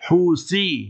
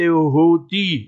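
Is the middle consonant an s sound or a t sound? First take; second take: s sound; t sound. First: The middle consonant is an s sound. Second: The middle consonant is a t sound. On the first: The speaker calls it right. "it's with the Sa, with the Se" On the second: The speaker calls it wrong. "It's not Houthi, it's not with the Ta, with the Te"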